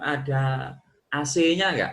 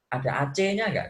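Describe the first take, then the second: First: The letter C is named with an English sound. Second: The letter C is named with an Indonesian sound. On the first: The speaker calls it wrong. "Nah itu itu sebenarnya salah itu" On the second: The speaker calls it right. "itu harusnya"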